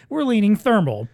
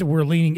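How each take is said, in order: First: "we're" lifted high with a falling close; playful stress on "we're"; teasing emphasis. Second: Said in the usual way. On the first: Shown as a demonstration. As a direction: tease "we're leaning thermal" with a lift on "we're".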